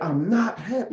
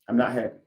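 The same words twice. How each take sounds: First: It is said with strong feeling. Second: It is said flatly, without feeling. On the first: The listener is meant to feel the hurt. "You said it with emotion" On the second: The words are only reported, not felt. "You didn't say that"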